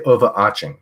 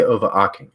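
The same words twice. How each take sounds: First: "overarching" pronounced over-ARCH-ing. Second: "overarching" pronounced over-ARK-ing. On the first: Streamer shows how other people say it, "overarching" with a CH sound. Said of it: "People say overarching ... I say overarching". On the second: Streamer shows his own way, "overarching" with a K sound. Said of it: "and I say overarching". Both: Shown as a demonstration.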